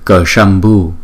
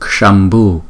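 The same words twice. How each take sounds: First: The initial k sound is pronounced clearly. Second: The initial k sound is very light. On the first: The speaker calls it wrong. "Chúng ta đừng có đọc là" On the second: The speaker calls it right. "Chỉ đọc là chữ cờ nhỏ nhỏ thôi"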